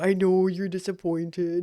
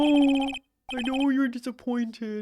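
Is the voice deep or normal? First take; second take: deep; normal. First: It is said in a deep voice. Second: It is said in a normal voice.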